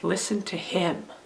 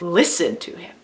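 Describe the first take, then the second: First: The stress falls on the word him. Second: The stress falls on the word listen.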